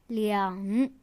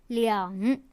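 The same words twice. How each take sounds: The two takes are said the same way.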